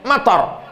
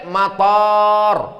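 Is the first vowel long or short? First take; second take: short; long. First: The first vowel is short. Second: The first vowel is long. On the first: It means rain. "Mator pendek" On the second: It means airport. "kalau pakai alif"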